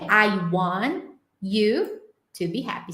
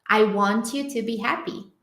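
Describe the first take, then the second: First: The T is held before a separate 'you'. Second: The T blends with 'you' into a 'ch' sound. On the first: "segurando esse T" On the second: "Sonzinho de T e um you"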